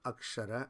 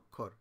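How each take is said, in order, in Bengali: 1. এটি সংস্কৃত ধ্বনিতে উচ্চারিত হয়। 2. এটি বাংলা ধ্বনিতে উচ্চারিত হয়। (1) "আসলে সংস্কৃত উচ্চারণ অক্ষর" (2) "আমরা অক্ষর বলি তো বাংলাতে, উচ্চারণ অক্ষর"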